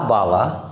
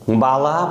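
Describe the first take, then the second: First: বালা with pressure on the opening বা; lower, pressed বা in বালা; stressed first syllable. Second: Said in the usual way. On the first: Shown as a demonstration. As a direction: lean on the বা of বালা. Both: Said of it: "উর উপরে একটা stress পড়েছে".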